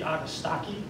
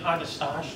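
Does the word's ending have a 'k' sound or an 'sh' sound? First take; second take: k sound; sh sound. First: The ending sounds like staki, with a k sound. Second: The ending rhymes with mustache, with an sh sound. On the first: The speaker calls it right. "it should be Agastaki, like a hard C" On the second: The speaker calls it wrong. "you might be inclined to say Agastache, which is my first thing, because it looks like mustache"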